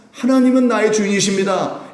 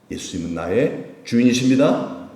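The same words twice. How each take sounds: First: High, loud declaration of faith; fervent confession. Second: Said in the usual way. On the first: Shown as a demonstration. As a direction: proclaim it with full voice. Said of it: "고백하면서 하시길".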